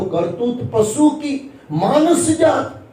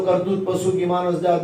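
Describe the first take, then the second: First: It is said with feeling for the meaning. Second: It is read flatly, without feeling.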